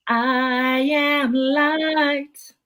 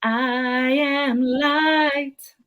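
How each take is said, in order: First: I am light, very slow, am stressed and lifted. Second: I am light, very slow, light held and stressed. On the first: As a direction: lean into am, drawn out. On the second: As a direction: lean into light, drawn out. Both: Acted. Poet repeats line, varying stress.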